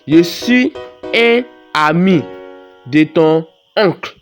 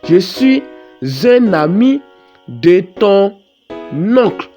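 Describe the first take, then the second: First: The words are said separately without liaison. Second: Final consonants link into the following vowels. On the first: The speaker calls it wrong. "lorsque tu lis comme ça, ça ne sonne pas bien" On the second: The speaker calls it right. "Il faut faire ce qu'on appelle la liaison"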